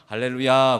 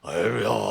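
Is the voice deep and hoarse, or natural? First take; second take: natural; deep hoarse. First: The voice is plain and natural. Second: The voice is lowered, deep and hoarse. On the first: The speaker simply says it as themselves. The speaker calls it right. "그냥 할렐루야 그냥 그러면 되지" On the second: The speaker pretends to be weighty and holy. The speaker calls it wrong. "목소리 쫙 깔면서 쉰 목소리 막 내면서"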